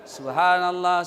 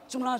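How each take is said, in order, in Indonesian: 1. Diucapkan pelan, setiap suku katanya jelas. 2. Diucapkan sangat cepat dan menyambung jadi satu. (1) "Yang bagus bos" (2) "Sikirnya terlalu cepat"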